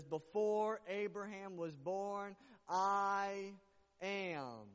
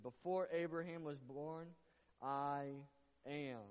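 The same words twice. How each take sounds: First: "Before Abraham was born" slowed, then "I" punched loud with a held pause before "am"; linger, then land hard on "I"; slow, heavy stress on "I" of "I am". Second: Said in the usual way. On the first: Shown as a demonstration. Pastor repeating Jesus' words to the church, slow with a loud "I".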